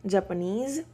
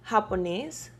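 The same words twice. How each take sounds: First: Said in the usual way. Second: Japonés with an h-like j, stressed final -nés; Spanish pronunciation. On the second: Shown as a demonstration. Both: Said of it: "We have the word".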